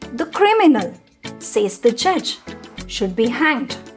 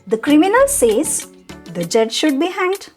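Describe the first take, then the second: First: Pauses come before and after 'says the judge'. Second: It runs through without pauses around 'says the judge'. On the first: "a very different meaning by just the pause" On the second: "The same sentence"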